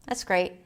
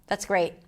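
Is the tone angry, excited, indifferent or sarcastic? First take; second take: indifferent; indifferent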